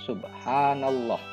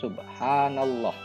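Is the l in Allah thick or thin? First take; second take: thick; thick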